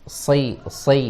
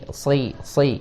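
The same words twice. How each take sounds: The two takes are said the same way.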